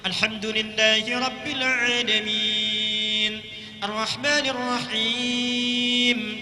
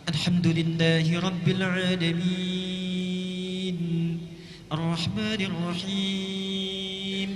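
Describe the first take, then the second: First: It is recited at a medium, moderate pace. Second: It is recited slowly with long, drawn-out vowels.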